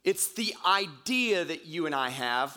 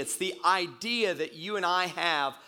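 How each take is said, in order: First: Said in the usual way. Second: Emphasize idea for the congregation; stress on idea. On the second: Shown as a demonstration. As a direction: lean on the word idea. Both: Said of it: "I want to emphasize that word idea".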